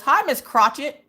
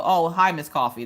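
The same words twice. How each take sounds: First: "Miss Crotchet" said with a hard kr and a -chet ending; bright, slow "Hi, Miss Crotchet" with "Crotchet" said as krah-chit; wrong name. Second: "Miss Coffee" said plainly as kaw-fee; easy "Oh, hi, Miss Coffee" in a usual voice; correct name. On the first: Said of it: "first time anyone's mispronounced my name". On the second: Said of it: "most people see my name and they go". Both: Retold or imitated.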